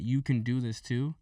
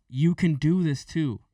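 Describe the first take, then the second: First: Said in the usual way. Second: Slow, higher, pressing each word; pushy encouragement. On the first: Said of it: "when I start saying that". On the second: Retold or imitated. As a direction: shove it at them, slow and pointed. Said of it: "push it in people's face".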